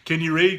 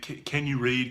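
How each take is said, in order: First: It is said in a curt, impatient tone. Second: It is said in a gentle, sympathetic tone.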